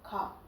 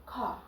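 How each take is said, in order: First: The final r sound is dropped. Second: The final r sound is dropped.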